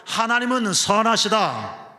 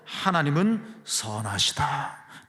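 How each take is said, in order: First: Loud, high congregational lead; rousing call-out. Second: Slow, deliberate statement at normal volume; measured declaration. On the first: Preacher leads congregation in repeating the line, rousing loud call. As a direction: proclaim it loudly for everyone to repeat. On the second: Preacher answers what we can believe, slow measured declaration. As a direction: state it slowly, stretching the words. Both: Shown as a demonstration. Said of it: "따라해볼까요?".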